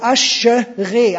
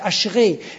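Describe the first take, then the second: First: Every vowel is spoken as a separate syllable. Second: The syllables are pulled together into fewer. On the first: The speaker calls it wrong. "Aber Aschere sagt man nicht" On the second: The speaker calls it right. "weil man zieht das zusammen"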